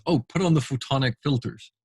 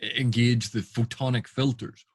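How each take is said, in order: First: Mock casual order. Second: Firm command. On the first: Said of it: "And then the captain says". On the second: Shown as a demonstration. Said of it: "and the captain say".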